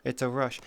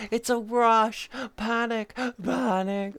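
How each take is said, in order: First: Said in the usual way. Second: High, slow thrilled exclamation; playful excited cry. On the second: Pretend. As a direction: stretch it out with glee.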